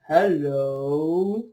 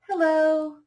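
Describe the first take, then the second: First: It is said in a very low voice. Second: It is said sweetly with a big smile.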